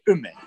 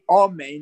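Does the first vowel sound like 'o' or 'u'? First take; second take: u; o. First: The first vowel is a short 'u' sound. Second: The first vowel is a full 'o' sound. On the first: The speaker calls it wrong. "you would pronounce it with a shva" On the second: The speaker calls it right. "instead of pronouncing the aleph with a comet"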